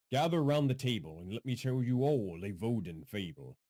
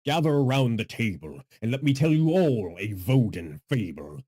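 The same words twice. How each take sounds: First: Restrained storyteller's opening; measured fable-teller delivery; storyteller intro. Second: Loud, projected storyteller intro; big theatrical fable-teller; deeper storyteller voice. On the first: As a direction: invite listeners into a fable, without booming. Storyteller intro retested at softer level. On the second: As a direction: boom out the opening of a fable. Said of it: "I am now using my deeper voice". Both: Pretend.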